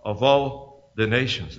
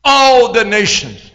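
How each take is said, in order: First: "all the nations" low, soft and slow; hushed answer. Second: ALL drawn out at full voice; emphatic repeat. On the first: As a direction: drop right down on "all the nations". Hushed answer to own question. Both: Real, not acted.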